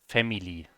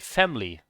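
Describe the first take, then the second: First: The middle vowel is pronounced clearly. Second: The middle vowel is barely pronounced. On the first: The speaker calls it wrong. "They don't say family" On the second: The speaker calls it right. "they don't really pronounce the E very strongly"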